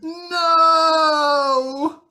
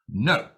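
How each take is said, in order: First: It sounds shocked and grieving over sad news. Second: It sounds like a firm command to stop.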